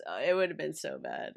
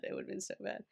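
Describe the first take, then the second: First: Said in the usual way. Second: Whispered, much softer; a hushed echo of the line before. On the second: Real, not acted. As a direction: drop to a whisper on the repeat. Repeats the same phrase, then whispers.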